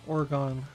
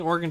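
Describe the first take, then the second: First: The final syllable sounds like 'gone'. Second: The final syllable sounds like 'gun'. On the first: The speaker calls it right. "I pronounce it like Oregano without the O sometimes" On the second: The speaker calls it wrong. "Saying organ doesn't make sense"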